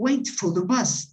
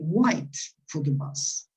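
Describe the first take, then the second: First: 'Wait' has an 'ay' vowel. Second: 'Wait' sounds close to 'white'. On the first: "So they don't wait for the bus" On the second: "they wait for the bus"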